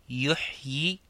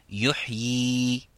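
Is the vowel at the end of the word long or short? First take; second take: short; long. First: The final vowel is kept short. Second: The final vowel is held long.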